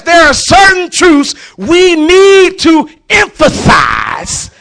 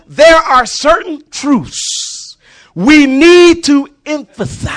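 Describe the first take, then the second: First: "need" rising and shouted, slow and drawn out; second take, full shouted emphasis; emphasized shout. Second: First pass putting weight on "need"; emphasized read. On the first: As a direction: belt "need" and hold "to emphasize". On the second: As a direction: stress on "need" and "emphasize", slow and loud. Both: Shown as a demonstration. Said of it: "I told you how to put emphasis on it".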